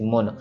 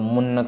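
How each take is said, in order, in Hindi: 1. शब्द नासिका ध्वनि के बिना, धीरे से बोला जाता है। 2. शब्द नाक से, खींचकर बोला जाता है। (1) "सॉफ्टली पढ़ना है, जैसे लिखा है वैसे मुन" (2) "नाक से पढ़ देते हैं"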